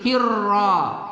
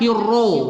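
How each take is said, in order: First: The vowel after the r sounds like 'a'. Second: The vowel after the r sounds like 'o'. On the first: The speaker calls it right. "Jadi tepatkan membaca tafkhim" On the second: The speaker calls it wrong. "Tidak kita baca hirro"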